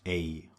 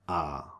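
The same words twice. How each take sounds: First: The vowel sounds like 'ay'. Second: The vowel sounds like 'ah'. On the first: The speaker calls it wrong. "It's never pronounced A, like in English" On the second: The speaker calls it right. "always pronounced like A, like the British R"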